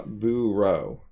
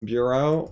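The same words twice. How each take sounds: First: "bureau" slowly, as BOO-roh; slow boo, then row; R with second syllable. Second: "bureau" slowly, as BYUR-oh; slow BYUR, then oh; R with first syllable. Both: Shown as a demonstration. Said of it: "which one the R goes with".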